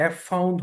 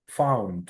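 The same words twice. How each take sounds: First: Letter name "ef" before ফাউন্ড; wrongly literal এফ ফাউন্ড, with an extra "ef"; spelled-out F. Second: ফাউন্ড opened straight on F, falling at the end; firm model of ফাউন্ড, said alone; pure F sound. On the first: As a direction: say এফ ফাউন্ড, naming the F first. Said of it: "এফ ফাউন্ড হওয়ার কথা ছিল". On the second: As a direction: start ফাউন্ড with "fa", no letter name. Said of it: "এটা sound হচ্ছে ফা". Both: Shown as a demonstration.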